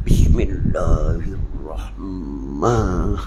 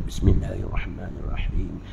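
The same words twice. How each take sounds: First: Very slow, low Bismillahirrahmanirrahim, every syllable stretched; mock drawn-out recitation. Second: Even, unhurried Bismillahirrahmanirrahim, softer and lower; just say it simply, no stretching; steady recitation. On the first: Teacher mocks needless show in prayer, very slow and low. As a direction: ham up a showy, over-pious recitation. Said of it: "Dok payah buat gini". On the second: Teacher shows students the proper way, plain and steady. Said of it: "Buat steady je". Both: Shown as a demonstration.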